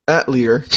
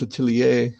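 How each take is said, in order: First: "Atelier" said as AT-lee-er; mispronunciation. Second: "Atelier" said as uh-TELL-ee-ay; proper pronunciation. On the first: Retold or imitated. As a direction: flatten "Atelier" into AT-lee-er with a hard r. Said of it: "but they were saying". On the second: Shown as a demonstration. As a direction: end "Atelier" French-style on "ay", silent r. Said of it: "it's supposed to be pronounced".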